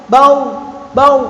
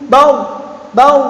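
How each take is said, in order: The two takes are said the same way.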